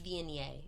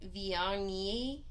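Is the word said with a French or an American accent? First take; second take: American; French. First: It is said with an American accent. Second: It is said with a French accent. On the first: "but I didn't. That's it's" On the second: "I was going to go with a French pronunciation. I was going to be like"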